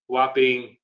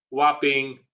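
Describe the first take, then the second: No difference in how they are said.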